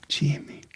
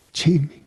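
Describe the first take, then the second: First: Faint whispered name. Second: Said in the usual way. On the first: Retold or imitated. Dying grandmother recognizing her grandson, faint whisper. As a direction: breathe the name weakly.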